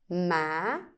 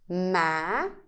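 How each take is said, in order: First: The pitch rises from low to high. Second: The pitch rises from low to high.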